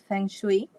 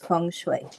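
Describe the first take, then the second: First: It is said the way common in Britain. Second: It is said the way common in America. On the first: "it has become established in the U K. The pronunciation is Feng Shui" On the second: "but in the United States, the pronunciation is Feng Shui"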